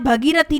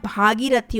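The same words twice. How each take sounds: First: भगीरथी with short bha; wrong form. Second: भागीरथी with long bhaa; correct form. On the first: Teacher showing the mistake, भगीरथी starting on short bha. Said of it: "भगीरथी नहीं होता". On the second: Teacher correcting students, भागीरथी starting on long bhaa. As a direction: open the first vowel of भागीरथी to aa. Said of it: "यहाँ भागीरथी होता है". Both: Shown as a demonstration.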